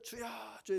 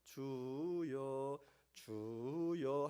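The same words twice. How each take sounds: First: It is said loudly with fervent energy. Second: It is said softly and drowsily.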